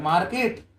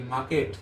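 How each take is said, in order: First: मार्केट with the r clearly sounded, mar-ket; मार्केट said wrongly with a full r; r pronounced. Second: मार्केट with the r dropped, maa-ket; मार्केट said correctly with the r silent. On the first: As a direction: say मार्केट rolling the r, as learners wrongly do. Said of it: "उसे मार्केट नहीं". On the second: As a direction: say मार्केट with a long aa and no r. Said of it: "आर इसमें silent रहता है". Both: Shown as a demonstration.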